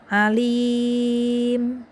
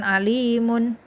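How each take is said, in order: First: The word ends on a closed m sound. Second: The word ends with an added -un ending. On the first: The speaker calls it right. "mimnya disukun seperti kita waqaf biasa" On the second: The speaker calls it wrong. "jadi bukan alimun, bukan gitu"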